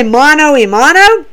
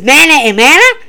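First: "mano y mano" with clear O endings; intended pronunciation. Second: "mana y mana" with AH endings; mispronounced Spanish. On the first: Fan gives the phrase Matt was trying for, correctly pronounced. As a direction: say "mano" ending in an OH sound, both times. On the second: Fan imitates Matt botching his Spanish, mispronounced "mana y mana". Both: Retold or imitated. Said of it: "he doesn't say it right".

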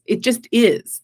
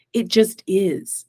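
First: Said in the usual way. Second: Slow, weighty "It just is."; slow and settled. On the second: Shown as a demonstration. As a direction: let "It just is." land slowly, each word apart. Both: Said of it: "a place where it's right or wrong".

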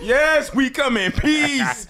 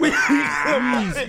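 First: High, slow alien voice. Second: High alien voice breaking into laughs; laughing alien voice. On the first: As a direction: ham up a peaceful alien. Acting alien arrival. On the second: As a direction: alien voice cracking up. Repeat of alien line, laughing. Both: Pretend.

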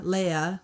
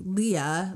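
First: Leah as LAY-uh, ay vowel. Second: Leah as LEE-uh, two syllables. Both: Shown as a demonstration. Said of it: "some people called you Shauna Leah".

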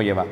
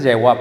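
First: Yahvah with a v sound; common pronunciation. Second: Yahweh ending in a "weh" glide; true pronunciation. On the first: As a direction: say Yahvah quickly, ending in "vah". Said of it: "lo pronuncia más como Yahvah". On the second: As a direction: say Yahweh with a w sound. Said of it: "Realmente es Yahweh". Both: Shown as a demonstration.

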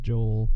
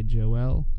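First: Said in the usual way. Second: Joel said as two syllables, "Jo-EL"; alternative pronunciation. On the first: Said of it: "go with the Americanized Joel". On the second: Shown as a demonstration. Podcaster showing how other people say it, Joel as "Jo-EL". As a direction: stretch Joel into Jo-EL, second syllable stressed. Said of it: "probably heard people say Joel".

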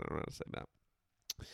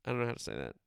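First: A near-silent mutter to yourself; whispered aside. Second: Said in the usual way. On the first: Real, not acted. Host giving up on the French name, whispering. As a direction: whisper it under your breath, giving up.

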